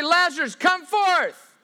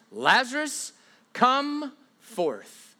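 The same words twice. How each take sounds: First: "Lazarus, come forth" yelled much higher and louder; mock shouted call. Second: Said in the usual way. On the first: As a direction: ham up a straining summons. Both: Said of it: "God doesn't say".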